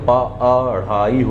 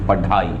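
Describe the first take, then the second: First: The middle consonant is an aspirated flap. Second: The middle consonant is a plain aspirated stop. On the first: The speaker calls it right. "लेकिन पढ़ाई होता है" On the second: The speaker calls it wrong. "ढा ढक्कन का अगर बोलते तो पढ़ाई हो जाता"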